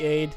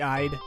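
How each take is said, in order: First: The vowel sounds like the one in 'made'. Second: The vowel sounds like the one in 'ride'. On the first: "it could be aid" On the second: "could be I'd"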